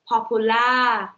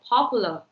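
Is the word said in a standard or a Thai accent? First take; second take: Thai; standard. First: It is said with a Thai accent. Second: It is said with a standard accent. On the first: "Thai people will say popular" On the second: "instead of popular"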